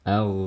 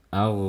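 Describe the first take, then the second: Both takes have the same delivery.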